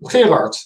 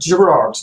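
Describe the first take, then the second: First: The name is said with a Dutch pronunciation. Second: The name is said with an American pronunciation. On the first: "give us the Dutch way" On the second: "The usual way they pronounce it in America"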